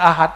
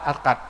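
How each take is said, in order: First: The middle consonant is an h sound. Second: The middle consonant is a k sound. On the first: This is the usual form of the word. "Di kampung saya nyebutnya ahad" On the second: This is how people in the speaker's village say it. "Akad malah"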